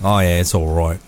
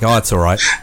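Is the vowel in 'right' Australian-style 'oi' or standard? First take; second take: Australian; standard. First: The vowel in right sounds like 'oi', Australian-style. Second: The vowel in right is a plain standard 'i'.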